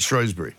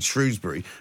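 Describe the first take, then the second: First: The first syllable does not sound like 'shrews'. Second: The first syllable sounds like the word 'shrews'. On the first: "but you're calling it Shrewsbury" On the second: "Shrews is supposedly the nickname for Shrewsbury town. So therefore, I've adopted Shrewsbury"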